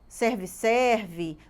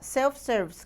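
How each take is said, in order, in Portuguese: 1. As duas partes soam como a palavra 'serve'. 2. A primeira parte soa como 'self'. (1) "muita gente que fala errado" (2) "o correto é falar self-service"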